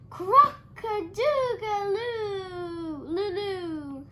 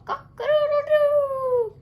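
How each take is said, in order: First: Very slow, high, loud failed crowing; a rabbit trying to crow and failing; botched rooster crow. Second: Very high, loud, slow crowing; rooster crow. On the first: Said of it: "threw back his head and shouted". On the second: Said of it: "showed off his magnificent call". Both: A narrator's reading.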